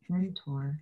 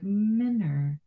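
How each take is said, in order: First: The middle T sound is strongly pronounced. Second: The middle T sound is dropped entirely. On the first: The speaker calls it wrong. "There is a T in there, and I over accentuate the T" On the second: The speaker calls it right. "they don't pronounce the T"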